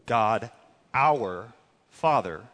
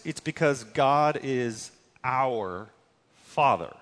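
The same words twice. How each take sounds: First: "our" slowed and leaned on, then "Father"; stress on our. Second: Said in the usual way. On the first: Shown as a demonstration. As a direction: lean hard on the word "our". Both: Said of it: "is the word our".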